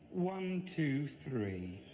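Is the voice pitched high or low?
low. It is said in a lower, normal male voice.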